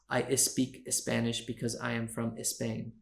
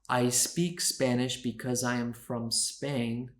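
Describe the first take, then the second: First: An extra vowel is added before the s-words. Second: The s-words start directly with the s sound. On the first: The speaker calls it wrong. "Spanish speakers often add a vowel" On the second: The speaker calls it right. "instead of saying"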